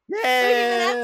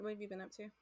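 First: It is said brightly, with lots of energy. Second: It is said flatly, with little energy.

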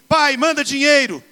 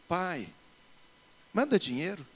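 First: It is read in a harsh, annoyed tone. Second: It is read in a sweet, tender tone.

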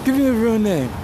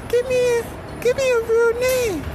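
First: The voice sounds like his ordinary voice. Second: The voice is altered further from his ordinary one. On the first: The speaker calls it wrong. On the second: The speaker calls it right.

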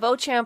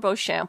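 First: The ch is pronounced with a hard 'tch' sound. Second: The ch is pronounced with a soft 'sh' sound.

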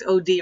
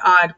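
First: The two letters O and D are said separately. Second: It is said as the single word odd. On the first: The speaker calls it right. "the correct pronunciation would be like Poltergeist OD" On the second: The speaker calls it wrong. "I was going by odd"

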